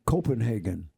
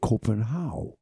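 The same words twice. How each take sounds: First: It is said in the common American way. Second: It is said the way locals say it. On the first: This is how outsiders say it. The speaker calls it wrong. "some people say Copenhagen" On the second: This is how people there say it. The speaker calls it right. "in Copenhagen they don't say that. They say Copenhagen"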